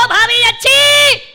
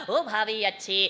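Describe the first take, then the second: First: High, loud, drawn-out call; acted yell to sister-in-law, stretched out; hollered greeting. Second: Said in the usual way. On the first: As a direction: shout it like the old taunt. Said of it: "भाभी समझी फिर काणी चिल्लाएगा".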